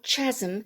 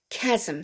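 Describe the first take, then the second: First: The word begins with a ch sound. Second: The word begins with a k sound. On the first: The speaker calls it wrong. "not chasm" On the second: The speaker calls it right. "we don't pronounce the H"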